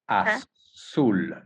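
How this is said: It is said with a Mexican pronunciation. "in Mexico, for you, Caitlin, it would be"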